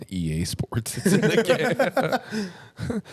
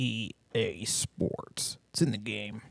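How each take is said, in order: First: The slogan drawn out high and slow; mock high slogan. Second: Low, slow, breathy-sounding EA Sports line; sultry slogan whisper. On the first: Friends mocking the EA slogan, high and slow. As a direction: stretch it up high like a squeaky parody. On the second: Pretend. Slogan purred to partner as a new fetish, low and slow. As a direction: purr the slogan like pillow talk.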